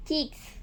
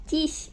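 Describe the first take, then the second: First: Said in the usual way. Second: ചീക്സ് said as ചീസ്, without the k; toddler mispronunciation. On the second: Retold or imitated. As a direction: drop the k to make ചീസ്, imitating a toddler. (കുഞ്ഞ് പറയുംപോലെ ക ഇല്ലാതെ ചീസ്) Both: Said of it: "ചീസ് എന്നാണ് പറയുന്നത്".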